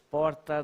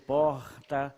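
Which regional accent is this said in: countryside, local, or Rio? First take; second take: local; Rio. First: It is said in the local city accent. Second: It is said in a Rio de Janeiro accent. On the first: "Aqui você diz porta" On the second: "no Rio porta"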